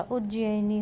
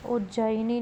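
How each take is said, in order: First: उज्जैनी said as uj-ji-ai-ni; correct pronunciation. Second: उज्जैनी said as uj-jai-ni; wrong pronunciation. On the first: Teacher giving the correction, उज्जैनी as uj-ji-ai-ni. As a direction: split the middle of उज्जैनी into "ji-ai". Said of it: "होगा". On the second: Teacher showing a spelling error, उज्जैनी as uj-jai-ni. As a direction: say उज्जैनी with one "jai" syllable. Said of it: "नहीं होगा". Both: Shown as a demonstration.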